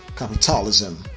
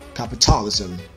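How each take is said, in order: No difference in how they are said.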